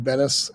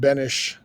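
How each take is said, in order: First: The name ends with an s sound. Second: The name ends with an sh sound. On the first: The speaker calls it wrong. "It looks like it should be Bennis" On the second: The speaker calls it right. "My family pronounces it Benish, like an H at the end"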